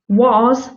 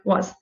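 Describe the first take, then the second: First: The vowel is full and distinct. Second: The vowel is reduced to a schwa. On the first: "it is was" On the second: "but in the speech flow, it will be more like was"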